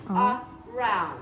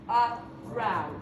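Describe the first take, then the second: Both takes have the same delivery.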